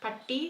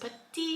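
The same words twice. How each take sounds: First: പട്ടി with the curled-back retroflex ട്ട; the wrong word to avoid. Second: പറ്റി with the alveolar റ്റ sound; correct Malayalam retroflex tt. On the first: Teacher contrasting പട്ടി, the word for dog. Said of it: "and not പട്ടി". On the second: Teacher showing how to say പറ്റി correctly. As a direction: say പറ്റി with the tongue tip on the ridge, not curled back. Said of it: "make sure that you pronounce this പറ്റി and not പട്ടി". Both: Shown as a demonstration.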